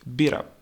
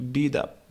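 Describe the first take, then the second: First: The T is dropped, linking into up. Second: The T is dropped, linking into up.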